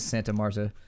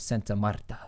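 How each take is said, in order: First: It is said in a casual, everyday pronunciation. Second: It is said in a careful, more native pronunciation. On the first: The speaker calls it wrong. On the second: The speaker calls it right.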